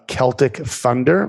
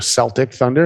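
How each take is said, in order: First: Celtic begins with a hard K sound. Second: Celtic begins with a soft S sound.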